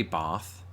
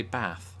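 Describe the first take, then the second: First: BATH with a long, drawn-out AH; long southern A in BATH; southern British bath. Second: BATH with a short A, as in cat; short, plain A in BATH; northern English bath. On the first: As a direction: say BATH as "bahth". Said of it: "I don't say bath". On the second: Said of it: "I say bath". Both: Shown as a demonstration.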